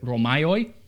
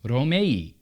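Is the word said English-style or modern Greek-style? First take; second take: English-style; Greek-style. First: It is said with an English-style pronunciation. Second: It is said with a modern Greek pronunciation. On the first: "in English, we pronounce it Romaioi" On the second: "but in modern Greek, it's Romei"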